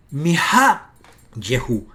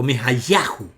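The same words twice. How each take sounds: First: "Mi-ha-yehu" very slow, loud, with "ha" stressed; demonstrated pronunciation. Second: "Mi-ha-yahu" with the stress moved onto "ya"; contrasting pronunciation. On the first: Teacher contrasting two readings, slow careful sounding-out. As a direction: draw out "Mi-ha", then a short "ye" in "yehu". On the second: Teacher giving viewers the rejected reading, stress on "ya". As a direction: open "ya" vowel, stressed, in "Mi-ha-yahu". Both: Shown as a demonstration. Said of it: "Aquí no es Mi-ha-yahu".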